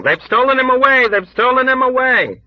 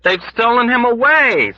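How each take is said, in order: First: High, loud, crowd-like screams; loud panicked chorus; screaming. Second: High, loud scream; loud panicked scream. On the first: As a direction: scream it with the ward. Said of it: "people all over the ward began screaming". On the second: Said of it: "screamed someone else". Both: Acted.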